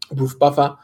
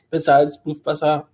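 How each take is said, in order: First: Said in the usual way. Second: Name garbled by a swallow; choking mid sentence. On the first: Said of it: "da hab ich den Namen nicht ausgesprochen". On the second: Real, not acted. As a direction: choke on the words mid-name. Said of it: "ich hab mich verschluckt".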